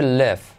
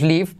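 First: The vowel sounds closer to a Spanish e. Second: The vowel sounds like a Spanish i. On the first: The speaker calls it right. "haz la I como una E" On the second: The speaker calls it wrong. "todos decimos live, pero no"

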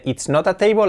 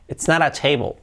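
First: The t in 'not a' is a hard stop. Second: The t in 'not a' is a soft flap. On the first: The speaker calls it wrong. "sigue sonando muy spanglish" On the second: The speaker calls it right. "la T, que la hacemos como una R suave"

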